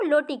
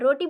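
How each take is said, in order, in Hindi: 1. इस शब्द की शुरुआत l ध्वनि से होती है। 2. इस शब्द की शुरुआत r ध्वनि से होती है। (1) "लोटी कहेगा, र को ला में परिवर्तित कर देता है" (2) "रोटी बोलनी है"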